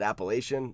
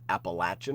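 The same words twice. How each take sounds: First: It is said in the northern regional way. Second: It is said in the southern regional way. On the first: "I always pronounce it Appalachian" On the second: "I've been down south, I've heard Appalachian a lot"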